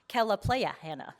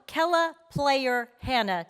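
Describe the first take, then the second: First: The middle name ends without an r sound. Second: The middle name ends with an r sound. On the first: The speaker calls it wrong. "I kind of wanted to mispronounce this one" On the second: The speaker calls it right. "Let's welcome"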